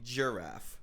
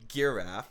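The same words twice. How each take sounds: First: The word begins with a j sound. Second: The word begins with a hard g sound. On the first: The speaker calls it right. "You say giraffe" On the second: The speaker calls it wrong. "You don't say giraffe"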